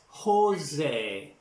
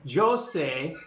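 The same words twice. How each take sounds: First: The name starts with an H sound. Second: The name starts with a J sound. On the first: "but in in Spango it's Jose" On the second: "the J sound, like J O S E, is sounds like Jose"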